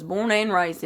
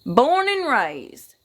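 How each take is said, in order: First: Said in the usual way. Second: "Born and raised" stretched very slow, higher and stronger; emphatic, long-drawn "Born and raised", rising high then falling; drawn-out emphasis. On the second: Real, not acted. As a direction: hammer home "Born and raised", lingering on each word. Repeats it for emphasis.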